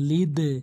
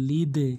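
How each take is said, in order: No difference in how they are said.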